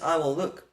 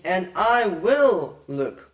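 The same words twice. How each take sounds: First: Said in the usual way. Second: Slow, weighty stress on WILL in "and I will look"; emphatic verb. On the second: Shown as a demonstration. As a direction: stretch and punch WILL in "and I will look". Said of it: "adds more emphasis to the verb".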